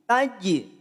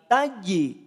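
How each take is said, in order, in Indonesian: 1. Huruf j di akhir kuat dengan pelepasan yang memantul. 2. Huruf j di akhir kuat dengan pelepasan yang memantul.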